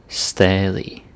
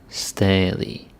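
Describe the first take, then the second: No difference in how they are said.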